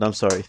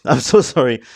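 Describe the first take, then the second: First: Said in the usual way. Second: Laughing, louder apology. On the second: Real, not acted. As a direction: laugh through the sorry.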